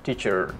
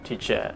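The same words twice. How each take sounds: First: The word ends with a pronounced R. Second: The word ends with no R sound. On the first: "how about American R sound? Like this" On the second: "R sound at the end is not pronounced"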